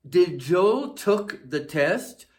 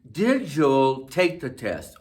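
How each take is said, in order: First: Slow, higher, stressing Joel with a rise, marking the error; incorrect example. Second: Slow and careful, Did stressed with a falling end; correct example. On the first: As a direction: read the wrong form deliberately slowly. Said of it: "This is incorrect". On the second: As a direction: read the right form calmly and clearly. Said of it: "Correct would be". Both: Shown as a demonstration.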